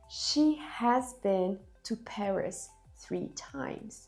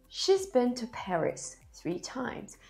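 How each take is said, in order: First: The word has is said in full. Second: The word has is contracted to she's. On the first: The speaker calls it wrong. "we don't say she has been" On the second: The speaker calls it right. "in daily spoken English, it's usually said like this"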